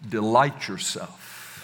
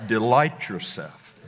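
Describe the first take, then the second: First: Delight drawn out and weighted, slow; slow stress on Delight. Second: Delight punched first; stress on Delight. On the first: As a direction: lean on Delight, slow and deliberate. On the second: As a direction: hit Delight, then let yourself fall. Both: Shown as a demonstration. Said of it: "like I say it".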